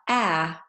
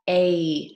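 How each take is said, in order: First: The vowel is an open 'ah' sound. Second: The vowel is a gliding 'ay' sound. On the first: This is the short A sound. The speaker calls it wrong. "So not ah" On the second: This is the long A sound. The speaker calls it right. "it's going to make A"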